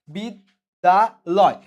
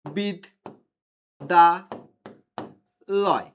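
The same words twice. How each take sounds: First: বিদ্যালয় joined back as one slow, drawn-out word; whole word again. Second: বিদ- দা- লয় said as three separate syllables with pauses; split into syllables. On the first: Teacher rejoining the syllables of বিদ্যালয় for students, slow whole word. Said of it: "এখানে আমার অক্ষর কয়টা আছে?". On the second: Teacher counting syllables of বিদ্যালয় for students, syllable by syllable. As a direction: break বিদ্যালয় into বিদ, দা, লয় with a beat between each. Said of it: "উচ্চারণ করার সময় বলতেছি বিদ". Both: Shown as a demonstration.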